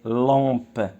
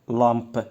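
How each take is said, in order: First: The vowel is nasal with no separate m. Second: The vowel is followed by an audible m. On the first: The speaker calls it right. "c'est lampe" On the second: The speaker calls it wrong. "ما كنقولوش lampe"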